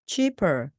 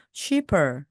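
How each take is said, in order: Both takes have the same delivery.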